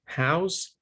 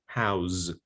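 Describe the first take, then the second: First: "house" with final s, higher and rising; voiceless noun ending. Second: "house" with final z, lower; voiced verb ending. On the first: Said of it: "it's voiceless". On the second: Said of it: "it's voiced". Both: Shown as a demonstration.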